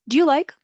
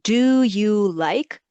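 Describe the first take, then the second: First: It is said quickly, with 'do you' reduced. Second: Each word is said fully and separately.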